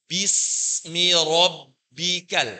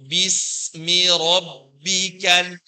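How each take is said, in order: No difference in how they are said.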